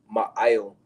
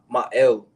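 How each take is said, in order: First: The second word has an 'ee' vowel. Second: The second word has an 'eh' vowel. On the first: The speaker calls it right. "That's the the true pronunciation" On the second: The speaker calls it wrong. "he said uh my my el"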